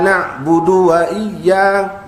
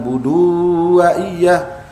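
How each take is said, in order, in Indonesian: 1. Vokal akhir dari budu pendek. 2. Vokal akhir dari budu dipanjangkan. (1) "Budu jangan dipanjangkan, tidak ada waw di depan dal" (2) "bukan budu wa iyyaka"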